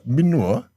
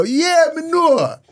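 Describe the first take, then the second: First: A Jamaican parent throwing "Me know?" back as a scornful question, rising on "know"; Jamaican parent mocking. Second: High, slow, put-on Jamaican accent; an eager British kid faking a Jamaican accent, drawn out high; excited fake Jamaican. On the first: Jamaican parent mocking the British kid's patois, questioning. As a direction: echo "Me know?" in a Jamaican accent, doubtful. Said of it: "they look at you and go". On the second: British kid trying Jamaican on his parents, an excited put-on accent. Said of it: "get a bit excited and go".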